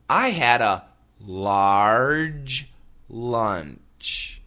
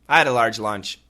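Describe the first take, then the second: First: The sentence is said slowly and carefully. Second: The sentence is said quickly and smoothly. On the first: The speaker calls it wrong. "nobody says" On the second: The speaker calls it right. "We always say"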